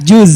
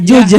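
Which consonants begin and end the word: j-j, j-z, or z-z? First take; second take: j-z; j-j. First: The word begins with j and ends with z. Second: The word begins and ends with a j sound. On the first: The speaker calls it right. "Yang pertama J ... terakhirnya Z" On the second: The speaker calls it wrong. "kadang orang Sunda juj"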